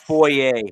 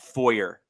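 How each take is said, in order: First: The word is said with a French-style ending. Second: The word is said with an English-style ending. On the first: The speaker calls it right. "just for the record, guys, um, it's foyer" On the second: The speaker calls it wrong. "not foyer"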